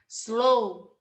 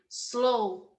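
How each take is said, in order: The two takes are said the same way.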